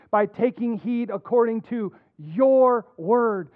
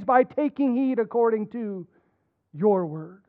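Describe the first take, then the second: First: Slow, your drawn out and stressed. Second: Said in the usual way. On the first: Shown as a demonstration. Pastor reading psalm to church, stressing your. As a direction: let your word carry the weight. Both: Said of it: "I'm gonna emphasize it as I read".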